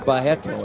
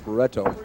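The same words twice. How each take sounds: First: The name is said with a Brazilian pronunciation. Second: The name is said with an English pronunciation.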